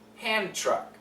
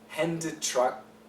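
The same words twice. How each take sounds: First: The D is dropped; only the T is pronounced. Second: Both the D and the T are pronounced. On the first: The speaker calls it right. "we connect and just keep the second sound" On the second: The speaker calls it wrong. "you don't have to say hand truck"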